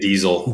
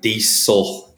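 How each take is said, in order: First: The middle consonant is a buzzing Z sound. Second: The middle consonant is a hissing S sound. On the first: This is how Canadians say it. "Canadians always say diesel. Like almost like a Z" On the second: This is how Americans say it. "Americans are always like diesel, big S on that"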